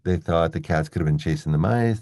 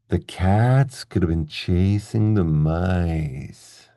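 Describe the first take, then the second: First: It is spoken quickly and smoothly. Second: It is spoken slowly and clearly.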